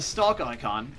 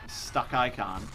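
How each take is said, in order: First: It is said in a put-on foreign accent. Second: It is said in the speaker's normal accent.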